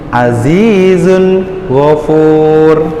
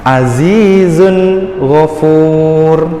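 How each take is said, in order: No difference in how they are said.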